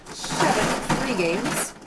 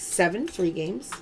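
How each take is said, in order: First: Seven free games stretched slowly, each word drawn out; slow, dragged-out prize call; slow drawn callout. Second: Said in the usual way. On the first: Acted. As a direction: savour it like an announcement.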